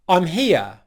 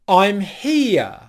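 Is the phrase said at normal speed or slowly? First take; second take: normal speed; slowly. First: The phrase is said at normal speed. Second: The phrase is said more slowly.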